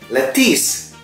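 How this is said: Said in an American accent, i-like final vowel. "American lettuce, U-nya berubah jadi huruf I"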